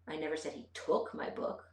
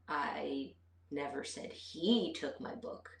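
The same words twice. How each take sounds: First: The word "took" carries the emphasis. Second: The word "he" carries the emphasis. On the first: The book was borrowed, not taken. "put the emphasis on took" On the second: Someone else took the book. "but maybe she took it"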